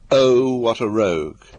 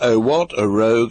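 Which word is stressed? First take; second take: Oh; what. First: The stress falls on the first word. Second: The stress falls on the second word.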